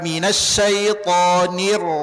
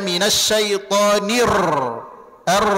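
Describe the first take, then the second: First: The final r is pressed lightly and flows on. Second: The final r is trilled strongly and at length. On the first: The speaker calls it right. "Tekan sedikit tapi dia tetap mengalir" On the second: The speaker calls it wrong. "Jangan dibaca minasyaitonir r. Jangan"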